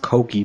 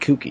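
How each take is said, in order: First: The first vowel sounds like 'oh'. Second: The first vowel sounds like 'oo'. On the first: The speaker calls it right. "it's pronounced Koki" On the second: The speaker calls it wrong. "I've always called it the Kuki"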